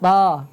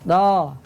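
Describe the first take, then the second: Both takes have the same delivery.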